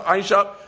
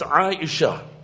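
First: The name is said plainly, without feeling. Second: The name is said tenderly, with deep feeling. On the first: The name is just a name to the speaker. The speaker calls it wrong. "You're not pronouncing it correctly" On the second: The name is dear to the speaker. The speaker calls it right. "There's passion, there's feeling, there's sentiment, there's emotion"

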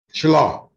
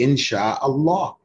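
First: The 'sha' syllable is clipped and incomplete. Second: The 'sha' syllable is fully pronounced. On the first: The speaker calls it wrong. "sha should also be complete. Not so it shouldn't be inshallah" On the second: The speaker calls it right. "it should be inshallah"

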